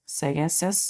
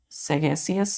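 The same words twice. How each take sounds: The two takes are said the same way.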